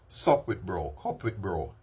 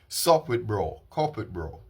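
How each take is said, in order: First: It is said weakly, with little energy. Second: It is said strongly, with more energy. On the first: The speaker calls it wrong. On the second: The speaker calls it right.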